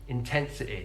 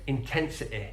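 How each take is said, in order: First: The word ends in a short 'i' vowel. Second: The word ends in a short 'i' vowel.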